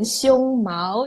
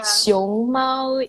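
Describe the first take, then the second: First: It is said with the tones that mean chest hair. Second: It is said with the tones that mean panda. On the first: The word means chest hair. "熊猫 it becomes the chest hair" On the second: The word means panda. "熊猫 is panda"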